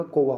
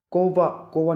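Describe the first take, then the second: First: कोवा with a v/w middle, "ko-va"; correct pronunciation. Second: कोवा with a b-like middle, "ko-ba"; wrong pronunciation. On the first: Teacher gives the right form, कोवा as "ko-va". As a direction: glide into the v of कोवा. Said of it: "होता है". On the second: Teacher shows the mistake, कोवा as "ko-ba". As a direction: make the middle of कोवा close to b. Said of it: "नहीं होता". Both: Shown as a demonstration.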